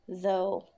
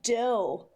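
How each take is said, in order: First: The word begins with a voiced th sound. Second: The word begins with a d sound. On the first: The speaker calls it right. "the th becomes a th, th, like a voiced sound, which is though" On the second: The speaker calls it wrong. "I hear a lot of people saying dough, like Homer Simpson"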